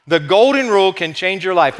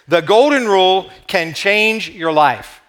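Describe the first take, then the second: First: "Golden" stressed, the phrase running on without breaks; emphatic restatement. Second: "Golden Rule" and "change" stressed, slowly with pauses; slow emphatic announcement. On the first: Preacher repeats the take-home point to the congregation, emphatic and flowing. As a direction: repeat "The Golden Rule can change your life" firmly in one flowing run. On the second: Preacher unveils the take-home point to the congregation, slow and emphatic. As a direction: spell out "The Golden Rule can change your life" slowly, phrase by phrase. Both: Real, not acted.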